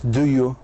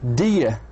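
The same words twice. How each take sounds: First: Each word is pronounced fully and separately. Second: The words are reduced and run together. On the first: The speaker calls it wrong. "مش" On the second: The speaker calls it right. "In the American accent, we say"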